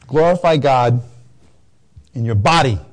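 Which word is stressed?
body. The stress falls on the word body. The body, not just the soul, must glorify God. "It said it's not just enough for the soul, it has to be the body"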